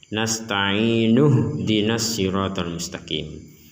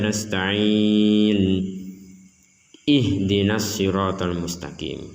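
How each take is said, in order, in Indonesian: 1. Kata-katanya menyambung tanpa jeda di antaranya. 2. Ada jeda sebelum ihdinas. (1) "bisa digabung dengan kata sebelumnya" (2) "atau dibaca terputus"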